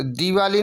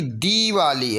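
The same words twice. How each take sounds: First: दिवाली with a short first i. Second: दीवाली with a stretched dee; long ee. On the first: Teacher showing the wrong spelling, दिवाली with short i. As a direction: clip the di in दिवाली. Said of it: "दिवाली नहीं बल्कि दीवाली". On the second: Teacher correcting the spelling, दीवाली with long ee. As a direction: hold the first vowel of दीवाली. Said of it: "बड़ी दी होनी चाहिए". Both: Shown as a demonstration.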